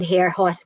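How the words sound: The name is said in an American English way. "In the standard American English, it's called hair horse"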